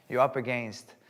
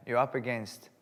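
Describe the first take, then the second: No difference in how they are said.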